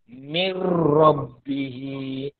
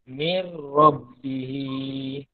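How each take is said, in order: No difference in how they are said.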